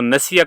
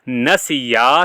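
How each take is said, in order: First: The final vowel is cut short. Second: The final vowel is held long. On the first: One person forgot. The speaker calls it wrong. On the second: Two people forgot. The speaker calls it right.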